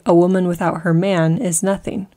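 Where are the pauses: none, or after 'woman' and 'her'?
none. It is said with no pauses.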